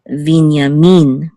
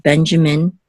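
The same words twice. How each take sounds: First: Hebrew "Binyamin" with a long final "min"; stress on MIN. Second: English "Benjamin", first syllable strong; stress on BEN. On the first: Teacher giving the Hebrew name, last-syllable stress in "Binyamin". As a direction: put the weight on "min" in "Binyamin". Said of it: "with accent on the last syllable". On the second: Teacher giving the English name, first-syllable stress in "Benjamin". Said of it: "accent on the first syllable". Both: Shown as a demonstration.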